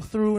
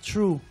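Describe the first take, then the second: First: The word begins with a soft 'th' sound. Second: The word begins with a hard 't' sound.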